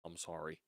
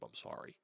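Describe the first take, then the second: First: Said in the usual way. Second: A breathy, voiceless little sorry; whispered sorry. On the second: Real, not acted. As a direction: whisper the apology under your breath. Mumbled apology after rant.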